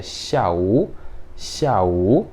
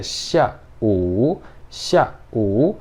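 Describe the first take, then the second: First: Syllables joined. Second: Syllables separated. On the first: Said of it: "Ou eu posso ler ele junto". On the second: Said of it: "eu posso separar os dois". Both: Shown as a demonstration.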